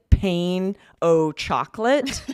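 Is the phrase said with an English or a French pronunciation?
English. It is said fully with an English pronunciation.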